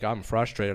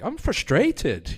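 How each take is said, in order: First: Said in the usual way. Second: Frustrated in a put-on British accent, high and drawn out; mock British accent, much higher and slower. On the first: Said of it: "instead of saying, like". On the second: Shown as a demonstration. Comedian showing how he talks after weeks in England, British accent. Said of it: "I kinda pick up accents quickly".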